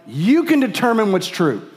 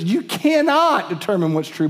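First: "can" swooping up high, then falling away; "can" raised high and stretched over the rest; stress on CAN. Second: "cannot" lifted high and hit firmly; "cannot" set high above the rest; stress on CANNOT. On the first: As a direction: lean hard on "can" as a tempting claim. Voices sin's claim, then contradicts it. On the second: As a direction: punch "cannot" to contradict the claim. Scripture's answer contradicting sin's claim. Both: Acted.

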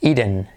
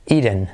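The two takes are said the same way.

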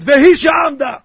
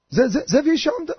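First: Loud, raised declamation; commander's declamation. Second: High, hesitant stammering explanation; clueless stammer. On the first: Officer explaining the Haggadah to soldiers, loud declamation. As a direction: belt out the line like a commander at attention. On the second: Unprepared man explaining to soldiers, halting high stammer. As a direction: stumble on the first word, then offer the line unsurely. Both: Retold or imitated.

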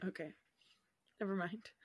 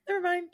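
First: Whispered "Never mind", soft and breathless. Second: Higher, chirpy "Never mind"; bright brush-off. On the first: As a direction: whisper it away, embarrassed. Takes back a failed reference. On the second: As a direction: brush it off cheerfully. Repeats it aloud brightly. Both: Real, not acted.

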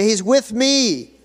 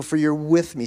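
First: Loud, high, drawn-out declaration; ringing preacher's prompt; congregational call-out. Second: Said in the usual way. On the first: Shown as a demonstration. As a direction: call it out slowly for everyone to repeat.

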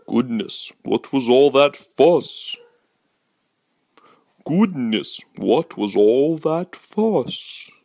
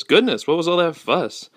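First: Slow, drawn-out put-on dad; hammed-up dad, lingering on each word; different dad voice. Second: Higher, mildly acted puzzled dad; lightly voiced dad asking about the commotion; a hint of an exclaiming dad; dad's line. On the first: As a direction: stretch the words in an exaggerated dad voice. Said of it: "a different voice for the dad". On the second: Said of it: "his dad says".

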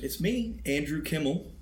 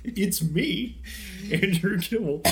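First: High, eager lift on the name; excited. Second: Imitating an over-eager introduction, pitched up; mock excited. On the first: Real, not acted. Cohost announcing his own name to listeners, excited. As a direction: introduce yourself with keen excitement. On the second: Host teasing cohost about his name, mock excited. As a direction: parrot the excited name announcement in a higher voice. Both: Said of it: "sounded so excited".

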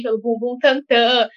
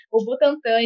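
First: Butantan said as "Bumbum Tantan", slow and playful; "Bumbum Tantan" stretched out as a joke; jokey mispronunciation. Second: Said in the usual way. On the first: Pretend.

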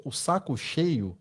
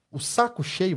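First: "o saco cheio" said slowly and softer, leaning on "cheio"; stressed phrase. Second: Said in the usual way. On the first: Shown as a demonstration. Host dwelling on the phrase "o saco cheio", slow and soft. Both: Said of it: "vamos dizer assim, a palavra assim".

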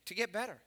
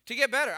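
First: Said in the usual way. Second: Louder, higher emphatic repeat. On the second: Shown as a demonstration. Pastor repeating the answer to his church, louder and emphatic. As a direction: drive the answer home to the congregation.

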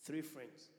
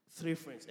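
First: Said in the usual way. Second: "Three friends" said louder, punching Three; louder, incredulous "Three friends"; emphatic repeat. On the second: Shown as a demonstration. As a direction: hit "Three" hard the second time.

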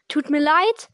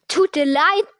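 First: Said in the usual way. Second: Mildly barked, incredulous echo; a touch of an indignant bark; barked retort. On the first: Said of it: "sagte Harry rasch". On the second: A narrator's reading. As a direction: throw it back with some force. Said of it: "bellte Hagrid".

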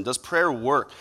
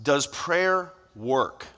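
First: Said in the usual way. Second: Very slow, drawn-out "Does prayer work?"; slow question. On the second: Shown as a demonstration. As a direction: let "Does prayer work?" hang slowly.

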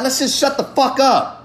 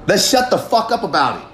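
First: Pitched way up, impassioned and urgent; fired-up plea to stop complaining; passionate outburst. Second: Said in the usual way. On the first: Real, not acted. Fed up with crying about it, speaker pleads passionately. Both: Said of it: "I say that in a way of passion".

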